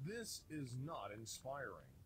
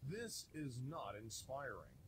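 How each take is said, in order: Both takes have the same delivery.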